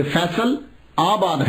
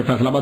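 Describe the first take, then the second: First: فیصل آباد said slowly, every syllable clear; careful full form. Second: Said in the usual way. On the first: Shown as a demonstration. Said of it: "جیسے وہ فیصل آباد کہتے ہیں". (فیصل آباد آہستہ اور صاف صاف) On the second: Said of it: "بولتے ہیں".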